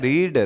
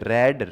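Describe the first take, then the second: First: The vowel is a long 'ee' sound. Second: The vowel is a short 'e' sound. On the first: It is the present form of the verb. "रीड first form होती है" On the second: It is the past form of the verb. "रीड की second form रेड"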